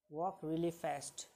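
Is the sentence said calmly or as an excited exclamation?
calm. It is said in a plain, calm statement tone. It is an ordinary statement. "It is also a perfect sentence"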